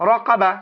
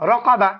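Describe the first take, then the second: No difference in how they are said.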